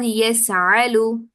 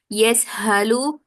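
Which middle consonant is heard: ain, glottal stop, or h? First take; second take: ain; h. First: The middle consonant is a throaty ain. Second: The middle consonant is a breathy h. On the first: "hamza will be replaced with a ain. This is also wrong" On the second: "It is not yes halu ... the hamza will be replaced with this ha"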